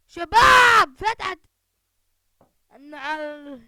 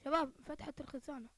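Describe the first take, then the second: First: High, very loud shout; excited shout. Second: Said in the usual way. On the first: Real, not acted. Calling his teammates about the opened locker, shouting. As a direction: yell it out to the whole squad.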